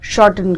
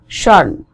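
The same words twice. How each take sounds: First: The T is fully released in the middle. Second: The T is held back in the middle. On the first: The speaker calls it wrong. "Indian style में बोलते हैं इसको हम shorten करके बोलते हैं" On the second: The speaker calls it right. "इस apostrophe का मतलब it's a held T"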